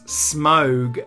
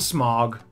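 First: The vowel is a gliding diphthong. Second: The vowel is a single blended sound. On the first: The speaker calls it right. "it's Smaug" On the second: The speaker calls it wrong. "I call him Smaug"

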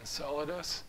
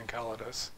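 First: The word starts with a soft s sound. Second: The word starts with a hard k sound. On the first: The speaker calls it wrong. "most people pronounce it Enceladus" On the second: The speaker calls it right. "All the C's you see are supposed to be hard C, so I'd say Enceladus"

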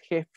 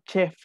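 First: The word begins with a j sound. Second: The word begins with a ch sound. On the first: "Aquí no es jef con J" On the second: "Tampoco digan chef como decimos en español"

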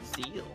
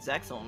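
First: The name is said without an x sound. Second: The name is said with an x sound. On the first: This is the proper way to say it. "That's how you pronounce it" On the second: This is how the speaker always said it. "I've always said Zexal"

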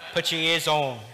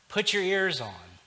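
First: It is said in an attempted Australian accent. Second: It is said in the speaker's own accent.

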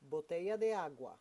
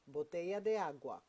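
No difference in how they are said.

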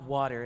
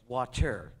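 First: The middle consonant sounds like a soft d. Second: The middle consonant is a clear t. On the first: The speaker calls it wrong. "It's not W-D-D-E-R" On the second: The speaker calls it right. "It's water"

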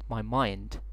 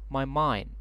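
First: The final D is clearly pronounced. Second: The final D is dropped, sounding like mine. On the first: The speaker calls it wrong. "not my mind" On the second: The speaker calls it right. "this is the deleted form of the letter D to become mine"

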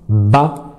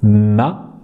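First: The syllable is said with the nose blocked. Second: The syllable is said with air through the nose. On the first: The speaker calls it wrong. "je vous dis de prononcer la lettre mime et de dire ma, mais de boucher votre nez" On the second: The speaker calls it right. "va venir être accompagné d'un nasillement"

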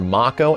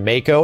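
First: The first vowel sounds like 'ah' in father. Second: The first vowel sounds like 'ay' in day.

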